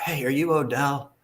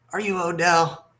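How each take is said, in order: First: Slow Southern drawl, a bit tipsy; first try in a drunk Southern accent, raised a little. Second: Put-on higher, slow drunk Southern drawl; insistent repeat in a drunk Southern accent, pitched up. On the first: Retold or imitated. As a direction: ask it like a drunk Southerner at a hotel. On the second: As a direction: push the question again like a tipsy Southern fan. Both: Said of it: "deep Southern accent that I have".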